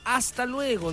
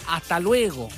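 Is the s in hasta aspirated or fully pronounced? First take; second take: fully pronounced; aspirated. First: The s in hasta is fully pronounced. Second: The s in hasta is aspirated or dropped. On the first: "ya no diría hasta luego" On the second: "diría hasta luego"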